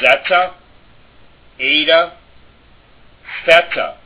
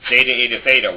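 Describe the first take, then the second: First: The letter names are said with Greek-style vowels. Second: The letter names are said with English-style vowels. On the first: The speaker calls it right. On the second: The speaker calls it wrong. "that's easy to do because it's like rhymes in your head in the English, but that isn't correct"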